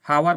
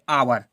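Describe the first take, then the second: First: The word begins with an h sound. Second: The word begins without an h sound. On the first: The speaker calls it wrong. "हावर बोल देते हैं" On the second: The speaker calls it right. "ये एच silent रहता है"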